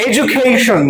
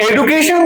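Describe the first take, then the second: First: এডুকেশন with a j, "ej-u-KAY-shun"; correct pronunciation. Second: এডুকেশন with a hard d, higher pitched; wrong pronunciation. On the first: Teacher offers the right choice to class, correct pronunciation. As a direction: say এডুকেশন carefully, d turned to j. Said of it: "সঠিক উচ্চারণ কি করব". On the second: Teacher offers the wrong choice to class, common pronunciation. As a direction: say এডুকেশন as "e-du-ke-shon", pitched up as a question. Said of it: "না বলবো". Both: Shown as a demonstration.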